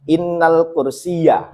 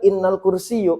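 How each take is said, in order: First: The last word ends in an 'a' vowel. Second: The last word ends in a 'u' vowel. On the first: The speaker calls it right. "harusnya seperti itu" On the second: The speaker calls it wrong. "itu langsung jadi catatan"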